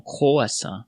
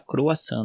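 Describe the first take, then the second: First: Croissant with a strong guttural French R, as "croassã"; croissant with the French R rolled hard in the throat. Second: Croissant the Brazilian way, the R light. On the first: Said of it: "bem forte". (croissant com o R francês bem forte) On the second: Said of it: "Eles não falam croissant". (croissant com o R brasileiro, suave) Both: Shown as a demonstration.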